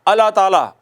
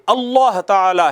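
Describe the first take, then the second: First: The doubled consonant is said lightly and loosely. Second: The doubled consonant is held strongly and forcefully. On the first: The speaker calls it wrong. "अल्लाह ताला नहीं है" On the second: The speaker calls it right. "ये अल्लाह ताला है"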